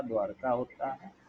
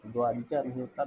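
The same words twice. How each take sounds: First: "द्वारका" with short a after द्व, clear and even; "द्वारका" spoken as द्-वार-का, no इ; correct form. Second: Quick throwaway "द्वारिका" marked as wrong; "द्वारिका" said quickly as the wrong spelling; wrong form. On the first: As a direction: say "द्वारका" plainly as the right form. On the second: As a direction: toss off "द्वारिका" fast as the mistake. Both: Shown as a demonstration.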